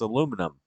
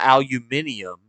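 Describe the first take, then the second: First: No extra syllable comes before '-um'. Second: An extra 'ee' syllable comes before '-um'. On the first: The speaker calls it right. "there's no third I" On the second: The speaker calls it wrong. "you're adding an extra I"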